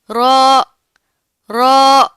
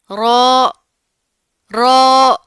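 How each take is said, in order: First: رو clear and firm with a trill; proper ro. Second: رو said loud the wrong way. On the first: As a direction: say رو the right way. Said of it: "proper طریقے سے ادائیگی کریں گے". (درست ادائیگی، رو) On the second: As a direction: show the mistake on رو. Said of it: "رو اس طرح نہیں کرنا". (غلط طریقے سے رو) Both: Shown as a demonstration.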